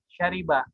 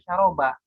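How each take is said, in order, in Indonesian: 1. Vokal kedua adalah bunyi i. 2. Vokal kedua adalah bunyi a. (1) "tapi dibaca syariba" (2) "ini tidak dibaca syaroba"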